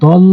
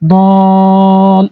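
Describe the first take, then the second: First: The vowel is not stretched before the doubled L. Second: The vowel is stretched long before the doubled L. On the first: The speaker calls it wrong. "দল এভাবে টানি" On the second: The speaker calls it right. "চার আলিফ টেনে তারপরে ধরতে হবে"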